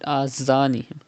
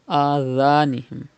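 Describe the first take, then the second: First: The second consonant is a hissing 'z' sound. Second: The second consonant is a soft 'th' sound. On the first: The speaker calls it wrong. "Do not read Azanihim" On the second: The speaker calls it right. "Pronounce Dhal without whistle"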